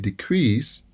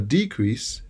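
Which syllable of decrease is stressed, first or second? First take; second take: second; first. First: The stress is on the second syllable. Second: The stress is on the first syllable. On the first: It is a verb. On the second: It is a noun.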